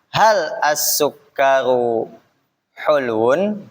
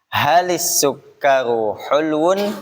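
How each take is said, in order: First: The first word is said separately from the next. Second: The first word links on with an added i sound. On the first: "Kalau kita pisah dulu bacanya" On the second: "Maka sukun yang pertama kasrohkan"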